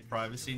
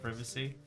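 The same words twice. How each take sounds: First: Said the ordinary, everyday way. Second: Said the posh, upper-class way. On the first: The speaker is a regular person. "the rest of us are normal and say privacy" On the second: The speaker is an upper-class person. "not privacy"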